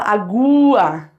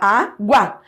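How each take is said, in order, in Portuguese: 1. O som do U é tônico, como uma vogal plena. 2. O A é tônico e o U é fraco. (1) "Você não fala agua" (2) "você fala água. A força tá no A"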